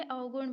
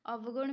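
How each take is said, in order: First: "अवगुण" with au, au-gun; contracted variant augun. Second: "अवगुण" with a v, av-gun; spelled-out variant avgun. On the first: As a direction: merge the first sounds of "अवगुण" into au. ("अवगुण" को औ-गुण बोलें) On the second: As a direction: sound a v before g in "अवगुण". ("अवगुण" में व साफ़ बोलें) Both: Shown as a demonstration. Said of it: "अवगुण भी लिखा जाता है".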